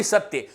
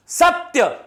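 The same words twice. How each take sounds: First: The wrong, unstressed सत्य; wrong satya. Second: सत्य said high, with a sharp push on the first syllable; stressed satya. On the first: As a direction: let सत्य fall flat. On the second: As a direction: punch the सत्य clearly. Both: Shown as a demonstration. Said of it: "ना कि सत्य".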